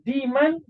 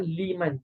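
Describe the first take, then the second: First: The word begins with a D sound. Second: The word begins with an L sound. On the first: It has no clear meaning. The speaker calls it wrong. "wallahu alam apa makna dia" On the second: It means for the one who. The speaker calls it right. "Lam dengan membawa makna bagi"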